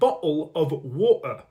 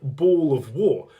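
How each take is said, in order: First: The T sounds are glottal stops in the throat. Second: The T sounds are left out completely. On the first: The speaker calls it right. "The T is still pronounced, only differently" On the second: The speaker calls it wrong. "They're not saying"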